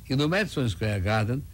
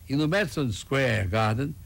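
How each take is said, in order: The two takes are said the same way.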